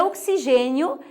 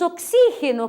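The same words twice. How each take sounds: First: Oxigênio said ok-si-ZHÊ-nio; Portuguese stress. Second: Oxígeno said ok-SÍ-he-no; Spanish stress. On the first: Teacher giving the Portuguese form, oxigênio stressed on GÊ. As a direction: lean on GÊ in oxigênio. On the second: Teacher giving the Spanish word, oxígeno stressed on XÍ. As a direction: lean on XÍ in oxígeno. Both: Shown as a demonstration. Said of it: "em português é oxigênio".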